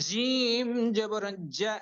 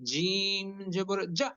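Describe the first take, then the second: First: The last syllable ends smoothly without a catch. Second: The last syllable ends with an abrupt catch. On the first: The speaker calls it right. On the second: The speaker calls it wrong.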